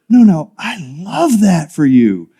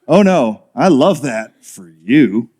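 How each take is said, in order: First: It sounds sincere and warm. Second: It sounds sarcastic and dismissive.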